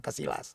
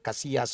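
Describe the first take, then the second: First: The double L is sounded like an L. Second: The double L is sounded like a Y. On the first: The speaker calls it wrong. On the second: The speaker calls it right. "kalau double L itu bacanya Y"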